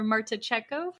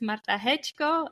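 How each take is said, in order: First: The name is said with English pronunciation. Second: The name is said with Polish pronunciation. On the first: "for those English speakers" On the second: "in my Polish pronunciation"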